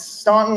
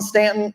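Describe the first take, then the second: First: The first vowel is an 'aw' sound. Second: The first vowel is a short 'a' sound. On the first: It follows the spelling with the U. "I'm going to say Staunton. There's a U in there" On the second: It is how the locals say it. "I know they all pronounce it Stanton"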